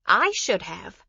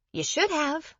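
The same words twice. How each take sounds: First: "I" hit high and loud, then falling; stress on I. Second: "should" lifted high in pitch; stress on SHOULD. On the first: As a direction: punch the word "I", let the rest drop. Shifting the blame to herself. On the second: Correcting who should have acted. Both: Acted.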